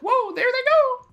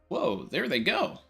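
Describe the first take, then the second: First: It is said in a Mickey Mouse voice. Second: It is said in his normal voice.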